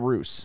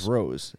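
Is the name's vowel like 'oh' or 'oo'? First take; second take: oo; oh. First: The vowel sounds like 'oo', as in 'moose'. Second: The vowel sounds like 'oh', as in 'rose'. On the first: The speaker calls it wrong. "It's not Roos" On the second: The speaker calls it right. "I would say it's Rose"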